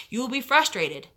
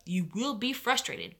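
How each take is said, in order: First: Frustrated punched, falling at the end; stress on frustrated. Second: Will stressed, said much softer, falling. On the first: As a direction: lean hard on frustrated. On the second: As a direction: hit will, then drop the volume. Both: Shown as a demonstration.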